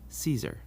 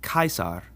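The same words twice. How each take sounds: First: The name begins with a soft sound, not K. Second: The name begins with a hard K sound. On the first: The speaker calls it wrong. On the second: The speaker calls it right. "the C sound like a k"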